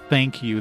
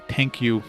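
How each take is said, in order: First: It is said with a clear English th sound. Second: It is said without an English th sound. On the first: "they're not gonna say like thank you" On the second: "They're gonna say thank you, there's no th sound in French really"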